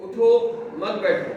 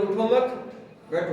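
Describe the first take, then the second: First: उठो, a clear break, then मत बैठो; pause after उठो. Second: उठो मत as one phrase, then बैठो; pause after मत. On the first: Teacher shows how a pause changes meaning, pause after उठो. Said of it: "उठो पे वक्फ किया". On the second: Teacher moves the pause to flip meaning, pause after मत. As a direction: hold the break until after मत, before बैठो. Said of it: "वक्फा change कर दिया". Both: Shown as a demonstration.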